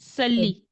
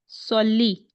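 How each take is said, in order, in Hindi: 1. शुरुआती s ध्वनि सादी और हल्की है। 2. शुरुआती s ध्वनि भारी और ज़ोरदार है। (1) "ऐसे ही पढ़ते थे ना हम अभी तक, जब तक हमें मखरज नहीं याद हुए थे" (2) "अब आई प्रॉब्लमैटिक बात कहाँ पर?"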